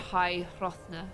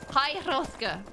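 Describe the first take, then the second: First: The name is said with an n sound. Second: The name is said with a k sound. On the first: The speaker calls it wrong. "I always find a random N in High Hrothna" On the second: The speaker calls it right. "I was going to say Hrothna. Hrothka"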